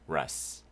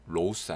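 First: The vowel is a short 'uh' sound. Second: The vowel is a long 'oh' sound. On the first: The speaker calls it right. "rus R-O-U-S" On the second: The speaker calls it wrong. "rose 아닙니다"

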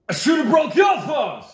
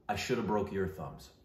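First: The line is said loudly in a character voice. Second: The line is said plainly, without yelling. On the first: "I'll say it like the character now" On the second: "I won't yell it. I'm just going to say the words"

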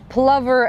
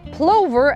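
First: The vowel sounds like the one in lover. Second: The vowel sounds like the one in rover. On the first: "as in a lover" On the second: "as in rover"

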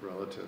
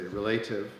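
First: The stress falls on the first syllable. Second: The stress falls on the second syllable, like relate. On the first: It is the usual pronunciation. The speaker calls it right. "you say relative" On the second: It follows the pattern of the verb relate. The speaker calls it wrong. "you don't say relative"

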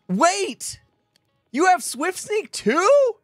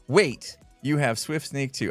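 First: It is exclaimed, rising at the end like a question. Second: It is read flatly as a plain statement. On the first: The speaker is surprised they share the same enchantment. The speaker calls it right. "I hear all the punctuation now. It was more like" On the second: The reader notes the other person has level two. The speaker calls it wrong. "I read wait till you have Swift Sneak 2"

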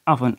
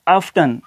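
First: The t sound is silent. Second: The t sound is pronounced. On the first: The speaker calls it right. "टी की जो voice है वो क्या हो जाएगी, silent हो जाएगी" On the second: The speaker calls it wrong. "ये भी गलत है"

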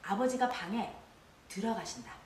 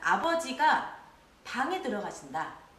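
First: There is a pause after the second word. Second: There is a pause after the first word. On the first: He is finally going in. "방에 하고 쉬게 되면요" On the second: He goes into the room, not somewhere else. "아버지가 하고 쉬고 방에 들어가신다"

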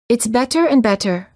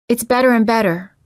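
First: The T sounds are clear Ts. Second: The T sounds are quick tapped Ds. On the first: "The first sentence of each pair is pronounced with a foreign accent or a British accent" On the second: "The second sentence is an American sound"

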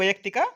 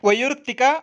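First: The vowel after 'vai-y' sounds like 'a'. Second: The vowel after 'vai-y' sounds like 'u'. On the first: The speaker calls it right. "ಶುದ್ಧ ಭಾಷಾ ಪ್ರಯೋಗದಿಂದ ಕೂಡಿದೆ" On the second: The speaker calls it wrong. "ಇವು ಶುದ್ಧ ಭಾಷಾ ಪ್ರಯೋಗದಿಂದ ಕೂಡಿಲ್ಲ"

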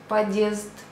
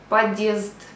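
First: The d blends straight into the vowel. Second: The d blends straight into the vowel.

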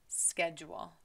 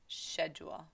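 First: It is said the American way. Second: It is said the British way. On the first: "in the United States, we say schedule" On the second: "lá no England, they say schedule"

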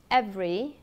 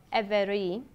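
First: The middle vowel is dropped, giving two syllables. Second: The middle vowel is pronounced, giving three syllables. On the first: "các bạn cần phải nuốt âm" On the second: "thay cho"

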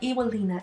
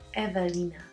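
First: The second consonant is a W sound. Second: The second consonant is a V sound. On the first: The speaker calls it wrong. "they have no idea why I say it's not Ewelina" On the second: The speaker calls it right. "it's Evelina"

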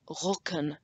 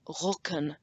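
First: The middle consonant is a k sound. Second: The same.

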